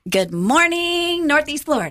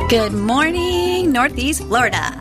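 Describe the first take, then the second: First: The greeting sounds bright and high in energy. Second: The greeting sounds flat and low in energy. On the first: The speaker calls it right. "There you go" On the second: The speaker calls it wrong. "You've got to be brighter than that"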